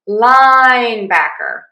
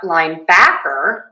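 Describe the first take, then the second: First: The stress is on the first syllable. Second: The stress is on a later syllable. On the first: The speaker calls it right. "we are going to stress syllable one" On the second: The speaker calls it wrong. "It's not linebacker"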